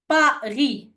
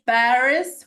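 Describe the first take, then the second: First: It is said with a French accent. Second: It is said with an English accent. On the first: The speaker calls it right. "We pronounce it in French" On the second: The speaker calls it wrong. "We don't pronounce it in English"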